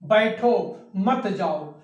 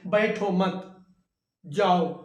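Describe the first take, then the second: First: There is a pause right after बैठो. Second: There is a pause right after मत. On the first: Stay here; do not go anywhere. "यहां पे अल्प विराम लगा दिया गया" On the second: Do not stay here; go away. "इसी विराम चिन्ह को हम अगर एक शब्द के आगे लगा दें"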